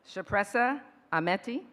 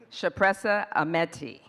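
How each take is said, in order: First: The name is said plainly. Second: The name is said emphatically.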